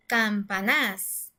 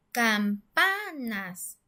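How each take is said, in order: First: Campanás mis-stressed on the final "nás"; stress on last syllable. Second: Campanas very slow, "pa" stretched out; stress on middle syllable. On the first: Teacher showing campanas the wrong way, "campanás" stressed at the end. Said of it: "en la última sílaba". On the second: Teacher sounding out campanas, middle syllable held and stressed. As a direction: draw out the "pa" in campanas. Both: Shown as a demonstration.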